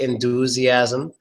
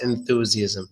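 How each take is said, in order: First: The second consonant is a plain t sound. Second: The second consonant is a soft th sound. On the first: The speaker calls it wrong. "Otherwise, you'll probably say enthusiasm" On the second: The speaker calls it right. "it's a soft T H sound"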